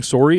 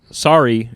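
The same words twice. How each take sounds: First: "sorry" with a rounded "sore-ee" vowel; Canadian rounded o in "sorry". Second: "sorry" with an open "sah-ree" vowel; American "sorry". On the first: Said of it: "not saying sorry and saying sorry". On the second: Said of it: "Saying, like, sorry". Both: Shown as a demonstration.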